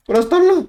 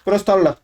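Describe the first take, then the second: First: High and loud, panicking; frantic yell. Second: Said in the usual way. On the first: Real, not acted. Gamer panicking as build time ends, high frantic yell. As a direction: yell it out as the clock runs out.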